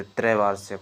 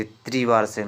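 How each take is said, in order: First: "त्रैवार्षिक" with an open ai in the first syllable; correct form demonstrated. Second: "त्रिवार्षिक" with an ee vowel in the first syllable; wrong form demonstrated. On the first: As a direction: say "त्रैवार्षिक" starting trai. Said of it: "त्रैवार्षिक होता है". ("त्रैवार्षिक" में पहले ऐ की मात्रा) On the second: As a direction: say "त्रिवार्षिक" starting tri, not trai. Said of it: "ये त्रिवार्षिक नहीं होते". ("त्रिवार्षिक" में पहले इ की मात्रा) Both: Shown as a demonstration.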